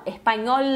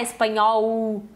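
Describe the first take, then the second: First: "Espanhol" ending on a held, clear L; clear final L. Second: "espanhol" ending in a drawn U sound; Portuguese final L. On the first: Teacher corrects the word for learners, final L sounded. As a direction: finish "Espanhol" with tongue up on L. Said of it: "é pronunciar o L". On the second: Teacher demonstrates the mistake, L said as U. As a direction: let the L of "espanhol" melt into U. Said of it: "Não pronunciar espanhol". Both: Shown as a demonstration.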